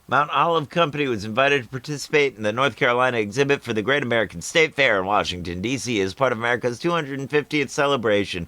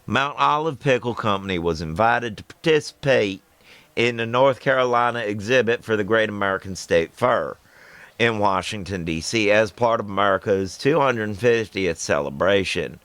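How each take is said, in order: First: It is read in the speaker's plain accent. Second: It is read in a put-on Southern accent.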